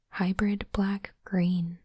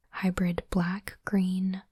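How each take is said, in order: Both takes have the same delivery.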